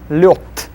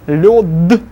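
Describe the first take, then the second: First: The final consonant is voiceless. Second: The final consonant is voiced. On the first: The speaker calls it right. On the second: The speaker calls it wrong.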